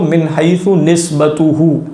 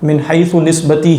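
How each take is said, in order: First: The final word ends with the vowels 'uhu'. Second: The final word ends with a short 'i' vowel. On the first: The word stands as a subject with an attached pronoun. "मैं पढ़ रहा हूँ इसको" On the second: The word is governed by the preceding word. "ही नहीं पढ़ रहा"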